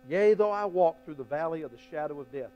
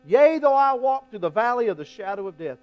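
First: Said in the usual way. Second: The verse called out louder and higher; proclaimed verse. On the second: Shown as a demonstration. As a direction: ring it out like a proclamation. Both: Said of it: "repeated verse".

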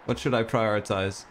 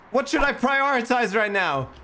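First: Said in the usual way. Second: High, loud frantic question; panicked yell. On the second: Real, not acted. Panics over too many tasks.

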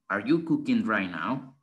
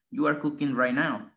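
First: "Are you cooking right now?" rising on "you" and lifting at the end; question tune. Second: "You are cooking right now" with a falling end, flat and sure; statement tune. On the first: Teacher shows students a question, rising tune. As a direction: ask it like you really don't know. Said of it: "vamos a cambiar el tono". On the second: Teacher shows students a statement, falling tune. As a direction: say it as a plain statement, dropping at the end. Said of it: "lo decimos". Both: Shown as a demonstration.

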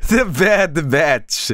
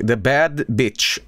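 First: "The Bad Batch" said slowly and carefully; corrected reading. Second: "bad bitch" said instead of Batch, slow and low; misread as bad bitch. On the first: Shown as a demonstration. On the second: Real, not acted. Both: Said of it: "That's not what it says".

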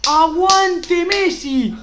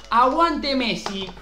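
First: High, loud, drawn-out chant; rallying shout. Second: Said in the usual way. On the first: Real, not acted. Streamer chants for luck before opening a pack, rallying shout. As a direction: belt it out slowly like a terrace chant.

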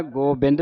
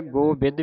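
First: ਗੋਬਿੰਦ with an n before d; nasal variant. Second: ਗੋਬਿੱਦ with no n before d; variant without nasal. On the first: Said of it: "ਦੋਨੇ ਉਚਾਰਨ ਕਰਵਾਏ ਜਾਂਦੇ ਨੇ". (ਗੋਬਿੰਦ ਨੂੰ ਟਿੱਪੀ ਨਾਲ ਬੋਲੋ) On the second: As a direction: go straight from "bi" to d in ਗੋਬਿੱਦ. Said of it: "ਬਿੰਦੀ ਟਿੱਪੀ ਨਹੀਂ ਲੱਗੀ". (ਗੋਬਿੱਦ ਨੂੰ ਟਿੱਪੀ ਤੋਂ ਬਿਨਾਂ ਬੋਲੋ) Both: Shown as a demonstration.

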